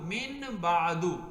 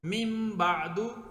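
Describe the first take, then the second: First: The sound before the b is an n. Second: The sound before the b is an m. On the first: This is how the word is written. The speaker calls it wrong. "अब ये असल में है मिन बादू" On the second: This is how the word is recited. The speaker calls it right. "पढ़ा जाता है मिम बादू"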